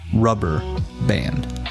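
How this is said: The vowel in band is short and even. "it's a very even kill"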